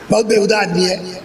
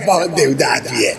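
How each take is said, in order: First: It is said with contempt and disgust. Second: It is said with a laugh, fondly. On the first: The speaker truly despises the man. "उसकी खिलकत ही नफरत के लिए" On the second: The speaker is fondly amused by a prank. "हंस के कहता"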